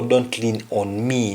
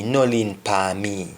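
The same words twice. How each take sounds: First: Said in the usual way. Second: "No lean depan me" in a Jamaican Patois lilt; a mild Patois request. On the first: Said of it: "Don't lean upon me". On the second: Shown as a demonstration. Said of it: "an example would say".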